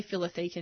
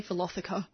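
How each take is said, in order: First: "Philotheca" as fill-o-THEE-ka; stressed long THEE in "Philotheca"; current pronunciation. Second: "Philotheca" as fi-LOTH-i-ka; short stressed LOTH in "Philotheca"; abandoned pronunciation. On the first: Gardener showing the corrected habit, "Philotheca" said fill-o-THEE-ka. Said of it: "I do say Philotheca now". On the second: Gardener mocking the old habit, "Philotheca" said fi-LOTH-i-ka. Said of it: "I don't say". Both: Shown as a demonstration.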